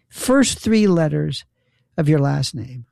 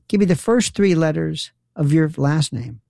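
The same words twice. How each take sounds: First: Slow, spelled-out instruction; insistent repeat. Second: Said in the usual way. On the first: Retold or imitated. Poll worker correcting the voter, slow insistent repeat.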